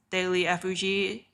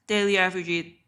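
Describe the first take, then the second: No difference in how they are said.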